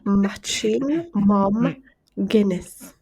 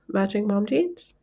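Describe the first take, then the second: First: It is said with a German accent. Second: It is said in a plain, unaccented way.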